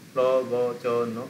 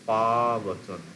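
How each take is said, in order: First: All four syllables are short. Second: The first syllable has a long, drawn-out vowel. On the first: "চারটে শর্ট হলো" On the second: "পাতে টান পড়ছে"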